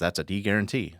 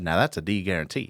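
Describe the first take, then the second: First: It is said in a plain accent. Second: It is said in a Kentucky accent.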